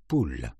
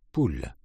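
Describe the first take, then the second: No difference in how they are said.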